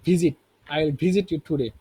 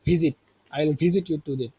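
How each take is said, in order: Both takes have the same delivery.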